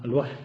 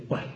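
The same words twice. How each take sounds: First: الوحل with a clear fatha on the ح; correct form. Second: Quiet وحل with the ح unvoweled; common wrong form. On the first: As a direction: stress the open vowel after ح in الوحل. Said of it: "بفتح الحاء". (الوحل بفتح الحاء) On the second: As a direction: softly say وحل with a still ح. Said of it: "نقول هكذا". (وحل بتسكين الحاء بصوت خافت) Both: Shown as a demonstration.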